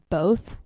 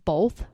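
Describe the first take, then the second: First: The word is said without an L sound. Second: The word is said with an L sound. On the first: The speaker calls it right. "the word both" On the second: The speaker calls it wrong. "I used to pronounce the word both as both. There's not an L in it"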